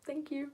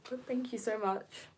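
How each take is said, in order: First: "Thank you." squeaked out much higher; high-pitched thanks. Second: Said in the usual way. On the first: Shown as a demonstration. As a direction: let the pitch jump up on "Thank you." from being touched. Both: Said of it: "my voice gets a bit, like, high-pitched sometimes".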